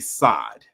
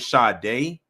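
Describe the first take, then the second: First: The name is pronounced like 'Sod'. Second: The name is pronounced like 'Sade'. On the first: The speaker calls it wrong. "they're going to mispronounce her name" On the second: The speaker calls it right. "instead of saying Sade"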